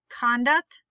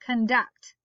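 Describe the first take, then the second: First: Conduct as KON-duct; stress on first syllable. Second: Conduct as kun-DUCT; stress on second syllable. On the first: Teacher reading word list aloud, stress on first syllable. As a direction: hit the Con in Conduct. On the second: Teacher reading word list aloud, stress on second syllable. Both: Shown as a demonstration. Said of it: "both of the different pronunciations".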